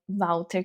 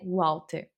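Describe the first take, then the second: First: The first sound is a V sound. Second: The first sound is a W sound. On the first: The speaker calls it right. "Walter com W no alemão é super aceitável" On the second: The speaker calls it wrong. "Ninguém vai ler Walter"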